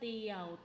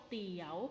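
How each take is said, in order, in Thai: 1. พยางค์นี้เป็นเสียงต่ำ 2. พยางค์นี้เป็นเสียงขึ้น (1) "เอก" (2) "จัตวา"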